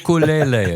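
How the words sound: It is said the Hawaiian islanders' way. The speaker calls it right. "the islanders say ukulele. It's the correct pronunciation"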